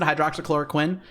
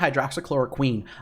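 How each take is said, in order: First: The last syllable does not sound like 'queen'. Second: The last syllable sounds like 'queen'. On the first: The speaker calls it wrong. "I actually pronounce it" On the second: The speaker calls it right. "It's actually"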